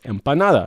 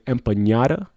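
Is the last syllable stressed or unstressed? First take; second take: unstressed; stressed. First: The last syllable carries no stress. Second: The stress falls on the last syllable. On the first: The speaker calls it right. "it's just empanada" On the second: The speaker calls it wrong. "people sometimes add an accent in the end"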